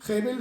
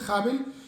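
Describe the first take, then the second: First: The first vowel sounds like 'e'. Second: The first vowel sounds like 'a'. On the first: "la palabra Hebel" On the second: "a veces la pronuncian Habel"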